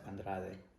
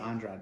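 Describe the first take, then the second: First: The name is said with Spanish pronunciation. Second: The name is said with English pronunciation. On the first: This is how Spanish speakers say it. "we pronounce it Andrade in mm-hmm. Spanish" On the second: This is how the commentators say it. "They say Andrade"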